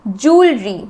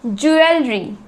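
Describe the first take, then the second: First: ज्वेलरी as JOOL-ree; low model of ज्वेलरी with no el; correct pronunciation. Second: ज्वेलरी as ju-EL-ree; common mispronunciation. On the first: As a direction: squeeze ज्वेलरी into two syllables, jool-ree. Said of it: "इसका सही उच्चारण होगा". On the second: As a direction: give ज्वेलरी a clear el in the middle. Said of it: "यही बोलते हैं ना हम कई बार गलती से". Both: Shown as a demonstration.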